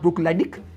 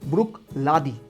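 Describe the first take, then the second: First: The name ends with a 'dick' sound. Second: The name ends with a 'dee' sound. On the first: The speaker calls it wrong. "It's not ब्रुक लैडिक" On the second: The speaker calls it right. "It's ब्रुक लादी"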